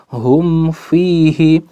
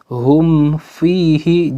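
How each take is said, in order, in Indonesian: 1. Bunyi m dibaca jelas sebelum f. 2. Bunyi m dibaca jelas sebelum f.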